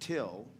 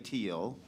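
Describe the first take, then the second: First: The vowel is short, like in 'till'. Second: The vowel is long, like in 'eel'. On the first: This is the Nebraska farm pronunciation. "we pronounce it till, just like the word T I L L" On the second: This is the corrected pronunciation. "but I can say teal"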